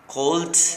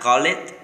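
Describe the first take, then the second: First: The ending is a t sound. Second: The ending is a separate extra syllable. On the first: "It's not a T" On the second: "It's not call it"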